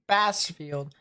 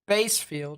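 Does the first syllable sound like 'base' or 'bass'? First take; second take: bass; base. First: The first syllable sounds like 'bass'. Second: The first syllable sounds like 'base'. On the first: "I've always pronounced it Bassfield" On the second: "Don't know if it's actually Basefield"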